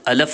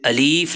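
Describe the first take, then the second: First: The second vowel is a short a. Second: The second vowel is a long ee. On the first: "इसको अलफ ना पढ़ें" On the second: "अलीफ ना पढ़ें"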